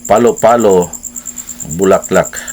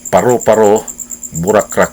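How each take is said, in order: First: Every r and l is said as l. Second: Every r and l is said as r. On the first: "matud pa sa insik" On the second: "iya hapong pag-pronounce"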